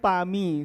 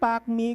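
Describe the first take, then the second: First: The first word ends without any k sound. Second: The first word ends with a clear k sound. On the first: The speaker calls it right. "it's silent K. It should be Pa" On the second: The speaker calls it wrong. "So I thought it's pronounced as pak"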